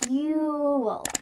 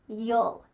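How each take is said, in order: First: The full vowel of 'you' is clearly heard. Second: The pronoun is reduced to a short 'yul' sound. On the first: "you could say it in a clear way" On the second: "in a relaxed, maybe lazy way"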